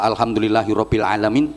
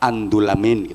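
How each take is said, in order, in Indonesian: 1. Seluruh frasa diucapkan lengkap. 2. Frasa itu dipadatkan menjadi satu kata pendek. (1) "maunya baca" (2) "karena nggak bisa"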